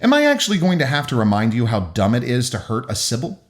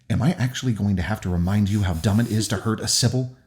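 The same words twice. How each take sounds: First: It is said too loudly, not kept low. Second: It is said low and quiet, crisply.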